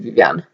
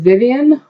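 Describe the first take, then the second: First: The name is said with French pronunciation. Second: The name is said with English pronunciation.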